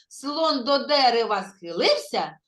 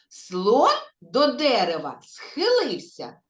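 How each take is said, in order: First: The phrase is spoken the fastest. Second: The phrase is spoken slowly. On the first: "а тепер ще трошки швидше" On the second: "Спочатку повільно"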